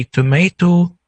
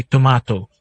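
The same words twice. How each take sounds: First: Tomato with a long AY, to-MAY-to; tomato as to-MAY-toh; "our" pronunciation. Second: Tomato with a broad AH, to-MAH-to; tomato as to-MAH-toh; "their" pronunciation. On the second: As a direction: say the middle of tomato like "ma". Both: Shown as a demonstration. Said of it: "where you pronounce it differently".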